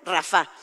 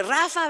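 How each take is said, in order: First: RaFA, stressed on the last syllable; stress on final A. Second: RAfa, stressed on the first syllable; everyday nickname stress. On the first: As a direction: correct it to Rafa with the weight on FA. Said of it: "con acento en la A". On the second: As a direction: call Rafa with the weight on RA. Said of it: "con acento en la A, porque Rafa, ven pa' acá, no". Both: Shown as a demonstration.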